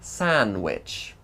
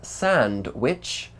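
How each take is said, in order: First: The d sound is left out entirely. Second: The d sound is clearly pronounced.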